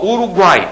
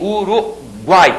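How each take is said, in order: First: Said in the usual way. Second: "Uruguai" drawn out, uru, then guai; slow "Uruguai", keeping guai in one syllable; split into syllables. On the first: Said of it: "Agora o que que eu tenho?". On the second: Shown as a demonstration. Teacher isolating the triphthong for pupils, "Uruguai" slowly split before guai. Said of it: "apareceram na mesma sílaba".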